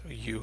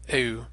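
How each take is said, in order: First: It sounds like the English word 'you'. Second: An e sound glides into a rounded French u. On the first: "just like the English word U" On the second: "We would have heard the E glide into that French U sound"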